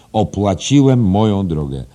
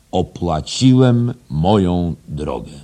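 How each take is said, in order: First: Loud, high, forceful declaration; proud boast. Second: Slow, loud, drawn-out proclamation; solemn boast. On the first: Headmaster repeating the boast to his teacher, loud and proud. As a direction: proclaim it with insistent pride. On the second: Headmaster quoting the proudest English boast, slow and solemn. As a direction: declare each word weightily, higher than usual. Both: Acted.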